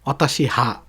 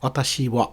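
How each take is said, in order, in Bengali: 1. কণাটি h ধ্বনি দিয়ে উচ্চারিত হয়। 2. কণাটি w ধ্বনি দিয়ে উচ্চারিত হয়। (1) "অতাশি হা হবে না" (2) "আপনার টপিক পার্টিকাল হা সবসময় ওয়া উচ্চারণ হয়"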